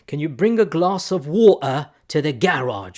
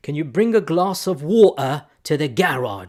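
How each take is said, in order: First: It is said in a British accent. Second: It is said in a British accent.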